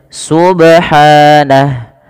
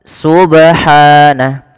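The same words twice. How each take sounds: The two takes are said the same way.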